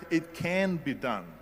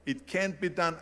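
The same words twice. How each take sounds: First: Slow, emphatic CAN, turning the doubt around; stress on CAN. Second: Said in the usual way. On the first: Retold or imitated. Speaker answering someone who said it can't, stress on "can". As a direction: lean hard and slow on "can". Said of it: "I heard". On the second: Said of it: "whenever someone said to me".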